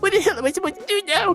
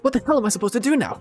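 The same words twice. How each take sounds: First: It is a crying voice like Marcius. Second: It is the character's usual voice.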